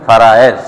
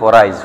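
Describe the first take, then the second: First: It is said in the full standard pronunciation. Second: It is said in a shortened regional pronunciation. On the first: The speaker calls it right. "কিন্তু আসলে শব্দটা ফারায়েজ" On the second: The speaker calls it wrong. "আমরা আমাদের আঞ্চলিক ভাষায় বলি ফরাইজ"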